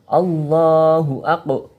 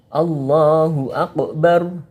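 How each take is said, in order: Both takes have the same delivery.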